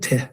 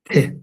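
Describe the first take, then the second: First: The t is said with a puff of air. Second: The t is said without a puff of air. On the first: The speaker calls it wrong. "Not te" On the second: The speaker calls it right. "pronounced without a uh, a puff of air"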